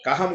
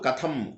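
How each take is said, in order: First: The middle consonant is a plain h sound. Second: The middle consonant is an aspirated t sound. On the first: The speaker calls it wrong. "కహం కాదు" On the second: The speaker calls it right. "కథం థ థ"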